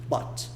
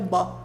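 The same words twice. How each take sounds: First: The final T sound is pronounced. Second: The final T is so light it nearly disappears.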